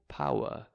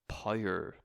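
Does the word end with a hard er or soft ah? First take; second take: soft ah; hard er. First: The ending is a soft ah sound. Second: The ending is a hard er sound. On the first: The speaker is from the south of England. "someone from the south of England would say power, like a soft ah sound" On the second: The speaker is from Northern Ireland. "being from Northern Ireland, I would say power"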